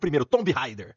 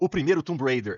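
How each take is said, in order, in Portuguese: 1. O nome é dito do jeito antigo. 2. O nome é dito do jeito atual, como de costume.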